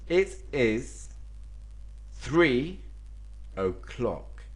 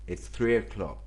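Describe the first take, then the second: First: It is said as two full words. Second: It is contracted into one syllable.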